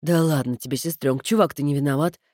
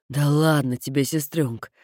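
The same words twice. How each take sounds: First: Giggling brother. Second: Carefree brother. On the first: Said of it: "хихикнул Кода". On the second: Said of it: "беспечно отозвался Кода". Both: Acted.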